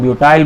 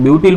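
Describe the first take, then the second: First: ब्यूटाइल ending like English "tile"; long "eye" ending. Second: ब्यूटिल ending in a short "-til". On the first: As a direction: say ब्यूटाइल with an "eye" vowel in the last syllable. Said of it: "कुछ लोग ब्यूटाइल बोलते हैं". (ब्यूटाइल, आख़िर में "आइ" के साथ "टाइल") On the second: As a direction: say ब्यूटिल with a short i in the last syllable. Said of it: "कुछ लोग ब्यूटिल बोलते हैं". (ब्यूटिल, आख़िर में छोटी इ के साथ "टिल") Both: Shown as a demonstration.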